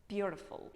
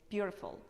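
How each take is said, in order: Both takes have the same delivery.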